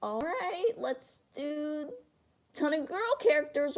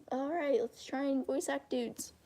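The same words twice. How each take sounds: First: High, drawn-out voice-actor take; slow, raised girlish character voice. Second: Soft, slow attempt at a dude voice; half-hearted go at voicing dudes. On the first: Acted. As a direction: put on a high voice for girl characters. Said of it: "So I either have the". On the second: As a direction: try a guy voice, slowly and quietly. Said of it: "I can't do dude voices".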